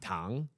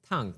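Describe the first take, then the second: First: It is said with the tone meaning sugar. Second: It is said with the tone meaning hot. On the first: The word means sugar. "and sugar" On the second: The word means hot.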